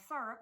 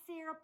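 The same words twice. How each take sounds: First: "syrup" with the first vowel as in "sir"; alternative syrup pronunciation. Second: "syrup" with the first vowel as in "sear"; first syrup pronunciation. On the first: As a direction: say "syrup" as SUR-up. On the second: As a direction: say "syrup" as SEER-up. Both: Shown as a demonstration. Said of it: "however you like to say it".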